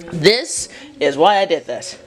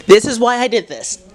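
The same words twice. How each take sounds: First: 'This' set apart, then slow 'is why I did this'; slow emphatic repeat. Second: Higher-pitched, quick 'This is why I did this'; lively declaration. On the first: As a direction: lean on 'This' and slow the sentence down. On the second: First take of emphatic repeat. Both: Real, not acted.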